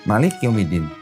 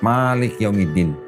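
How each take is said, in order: First: The first vowel of Malik is short. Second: The first vowel of Malik is long. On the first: King of the last day. "Maliknya pendek" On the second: Ruler of the last day. "ma-nya panjang"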